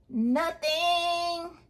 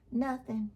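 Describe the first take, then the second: First: NOTHING stretched long on a high held note; drawn-out NOTHING. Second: Said in the usual way. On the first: Real, not acted. Exaggerated repeat of having nothing.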